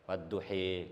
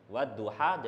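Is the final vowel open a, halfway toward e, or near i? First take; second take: near i; open a. First: The final vowel is tilted far toward i. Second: The final vowel is a fully open a.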